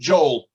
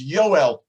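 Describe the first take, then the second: First: The name begins with a J sound. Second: The name begins with a Y sound. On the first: "In English, we pronounce it Joel" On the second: "his name in Hebrew is Yoel"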